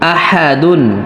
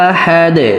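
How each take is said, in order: First: The word ends with a full '-dun' sound. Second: The word ends on a bouncing 'd' sound. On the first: The reading continues without stopping. "দাল দুই পেশ দুন" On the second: The reader stops at the end of the verse. "যখন আমরা ওয়াকফ করব তখন দালের এই তানবিনের উচ্চারণ করতে হবে না"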